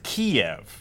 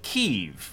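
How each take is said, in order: First: The name is said the Russian way, Kiev. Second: The name is said the Ukrainian way, Kyiv. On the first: It echoes Russian dominance over Ukrainians. The speaker calls it wrong. "that is saying it with a Russian accent" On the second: It is the name Ukrainians use themselves. The speaker calls it right. "Ukrainians call it Kyiv"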